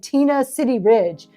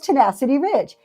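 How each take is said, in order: First: The first word is split into two words. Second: The first word is said as one word. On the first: The speaker calls it wrong. "I slaughtered her name the first time I said it. I said Tina City Ridge" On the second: The speaker calls it right. "oh, wait, no, that's Tenacity Ridge"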